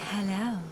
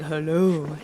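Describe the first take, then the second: First: It is said in a female voice. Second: It is said in a put-on male voice. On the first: It is the speaker's own voice. "And I'm all like" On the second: It imitates the partner's voice. "because you're all like"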